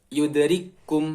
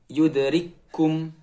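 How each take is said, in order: The two takes are said the same way.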